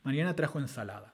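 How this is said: The main stress falls on the word ensalada. "ese ensalada que acabo de pronunciar es el acento nuclear"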